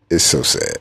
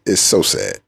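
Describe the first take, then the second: First: Lower, mock mournful sigh of a line; mock sad. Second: Said in the usual way. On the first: Mocking Cowboys fans, much lower mock sadness. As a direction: pretend to grieve over them.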